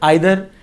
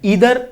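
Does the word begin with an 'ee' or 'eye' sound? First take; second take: eye; ee. First: The first vowel sounds like 'eye'. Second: The first vowel sounds like 'ee'. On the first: "दोनों बोल सकते हैं" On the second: "ईदर और और नीदर नोर को आप आइदर और और नाइदर नोर भी बोल सकते"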